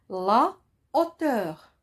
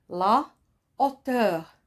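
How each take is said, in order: No difference in how they are said.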